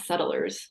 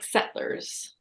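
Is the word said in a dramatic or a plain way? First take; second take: plain; dramatic. First: It is said in a plain, ordinary tone. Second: It is said in a grand, dramatic storytelling tone. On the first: It simply names people who settle. "not settlers" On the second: It evokes the romantic legend of pioneers. "you even say it differently, like settlers"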